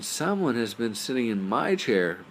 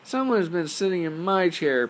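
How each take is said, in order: First: It is said in a medium-sized voice. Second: It is said in a tiny, high voice. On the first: "said in her medium-sized voice" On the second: "cried in his tiny little voice"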